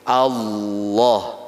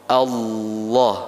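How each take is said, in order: No difference in how they are said.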